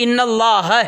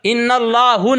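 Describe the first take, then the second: First: اللہ with a final "a", "Allaha"; اللہ ending in a clear open a-vowel; corrected ending. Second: اللہ with a final "u", "Allahu"; اللہ wrongly ending in an u-vowel; mispronounced ending. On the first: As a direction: say ان اللہ slowly as "innallaha". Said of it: "ان اللہ نہیں". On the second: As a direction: say ان اللہ slowly as "innallahu". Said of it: "سنو میرے، غلط، غلط۔". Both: Shown as a demonstration.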